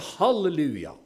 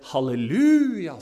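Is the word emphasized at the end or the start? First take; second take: start; end. First: It starts high, stressing the first syllable. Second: The pitch goes up on the final syllable. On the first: This is the Pentecostal way of saying it. "Det er det trøkk på første stavelse. Vi går høyt ut med en gang" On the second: This is the Salvation Army way of saying it. "Det er opp på slutten"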